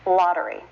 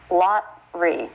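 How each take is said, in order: First: "lottery" as LOT-er-ee; three syllables. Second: "lottery" cut to lot-ree, in two parts; two syllables. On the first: Teacher modelling the right form, "lottery" in three syllables. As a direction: keep the middle schwa in "lottery". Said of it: "This is still a three-syllable word". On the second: Teacher showing the form we don't use, "lottery" as lot-ree. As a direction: drop the middle vowel of "lottery": LOT, ree. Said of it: "turning it into a two-syllable word". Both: Shown as a demonstration.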